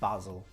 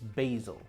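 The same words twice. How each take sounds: First: It is said with a British pronunciation. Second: It is said with an American pronunciation. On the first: "in England we call basil" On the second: "It's the American"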